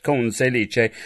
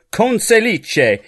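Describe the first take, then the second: First: Conselice said at normal pace as kon-say-lee-chay; quick pronunciation. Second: Conselice said slowly, high, as kon-say-lee-chay; careful pronunciation. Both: Shown as a demonstration. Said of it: "That's how his name has to be pronounced".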